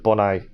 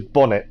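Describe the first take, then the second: First: The final T sound is left silent. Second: The final T sound is clearly pronounced.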